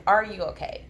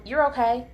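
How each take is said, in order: First: An open question, less high-pitched; genuinely asking. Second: Breezy higher, louder brush-off; dismissive. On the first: Parent checking on an upset child, genuinely asking. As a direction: check in as if you need the answer. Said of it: "I'm asking you". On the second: Parent brushing off a child's upset, dismissive. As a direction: wave it away, pitched up. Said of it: "how we'll kinda dismiss". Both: Shown as a demonstration.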